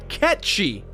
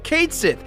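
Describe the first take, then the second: First: The name ends with a 'shee' sound. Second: The name ends with a 'sith' sound. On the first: This is the correct pronunciation. The speaker calls it right. "the correct pronunciation is in fact Ketch-Shi" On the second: This is how the game says the name. The speaker calls it wrong. "The game calls Cait Sith Cait Sith"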